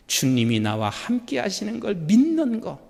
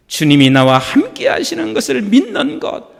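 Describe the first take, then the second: First: Said in the usual way. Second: Louder, firmer repeat; louder, more emphatic repeat of 믿는 것; louder restatement. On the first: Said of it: "repeats the statement". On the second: Shown as a demonstration. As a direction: say it again with conviction. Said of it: "repeated, louder".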